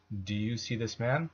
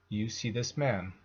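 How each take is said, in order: First: "man" lifted in a clear question rise; rising question intonation. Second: Said in the usual way. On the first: Shown as a demonstration. Teacher translating the question for learners, rising on "man". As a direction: raise your pitch on "man". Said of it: "we can raise the intonation towards the end". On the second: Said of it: "following statement".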